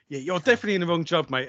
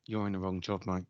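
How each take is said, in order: First: Higher, quick, impressed verdict; mock admiring remark. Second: Low, quiet, unimpressed verdict; mock disapproving remark. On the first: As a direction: imitate a workmate paying a compliment. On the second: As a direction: imitate a workmate's muted disapproval. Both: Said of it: "for good and for bad".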